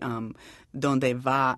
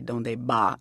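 First: The word 'va' starts with a V sound. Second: The word 'va' starts with a B sound. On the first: "when I say donde va" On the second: "their V's are always B"

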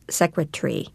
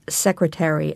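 First: One syllable of the word is dropped. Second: Every syllable of the word is pronounced.

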